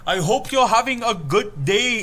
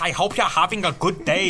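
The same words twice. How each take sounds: First: It is spoken in an Indian accent. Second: It is spoken in a German accent. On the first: "like an Indian store owner" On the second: "like a German tourist"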